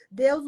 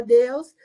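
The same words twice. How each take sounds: First: Said in the usual way. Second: A loud, rising call of Deus; calling out Deus in anguish; crying out to God. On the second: Retold or imitated. (clamando Deus em voz alta)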